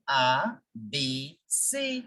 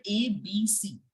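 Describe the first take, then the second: First: A, B, C said "ah, bay, say"; French letter names for A, B, C; French alphabet. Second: A, B, C said "ay, bee, see"; English letter names for A, B, C; English alphabet. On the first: Teacher contrasting French with English, A, B, C as "ah, bay, say". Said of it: "In French, we say". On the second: Teacher contrasting English with French, A, B, C as "ay, bee, see". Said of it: "So in English, you say". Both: Shown as a demonstration.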